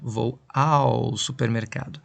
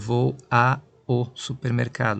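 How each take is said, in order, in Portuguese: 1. O 'a' e o 'o' se fundem em uma só sílaba. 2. O 'a' e o 'o' são ditos como palavras separadas. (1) "Nós falamos tudo junto" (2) "Nós não falamos desse jeito, separadinho"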